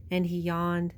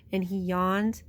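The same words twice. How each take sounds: The two takes are said the same way.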